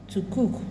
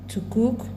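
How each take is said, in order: Both takes have the same delivery.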